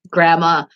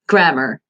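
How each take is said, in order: First: The R sounds are dropped. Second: The R sounds are clearly pronounced.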